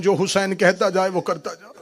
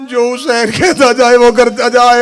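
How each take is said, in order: First: Said in the usual way. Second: Louder, higher, insistent repeat; emphatic command. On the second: Acted. Zainab commanding Abbas, louder emphatic repeat. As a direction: drive the order home with force. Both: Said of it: "repeated louder".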